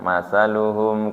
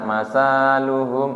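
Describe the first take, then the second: First: The vowel is kept short. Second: The vowel is drawn out long. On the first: The speaker calls it right. "contoh itu cara membacanya sebenarnya seperti itu" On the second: The speaker calls it wrong. "itu harusnya pendek"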